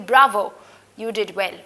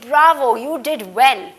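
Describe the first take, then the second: First: It is said plainly, like a statement. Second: It is said with strong, exclamatory emphasis.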